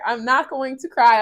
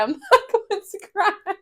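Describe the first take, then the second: First: Steadying herself, near tears; firm self-talk against crying; holding back tears. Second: High, tearful laugh on the words; laughing through tears. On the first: Vlogger telling herself not to cry, holding back. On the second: Vlogger repeating she won't cry, laughing tearfully. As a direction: giggle while fighting tears. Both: Real, not acted.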